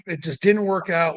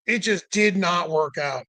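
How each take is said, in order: First: Said in the usual way. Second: Slowed, separate words on "did not"; emphatic DID NOT. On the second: Real, not acted. Driver summing up failed pump fix, emphatic "did not". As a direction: spell out "did not" slowly and firmly.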